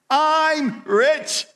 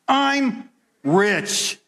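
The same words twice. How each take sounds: First: It is said smiling, with confident belief. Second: It is said plainly, without a smile.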